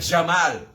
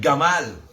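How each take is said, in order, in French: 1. Le mot commence par un son j. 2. Le mot commence par un son g dur. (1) "Jamais de dire Jamal" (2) "tout le temps de dire Gamal"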